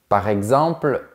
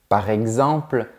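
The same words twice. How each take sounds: No difference in how they are said.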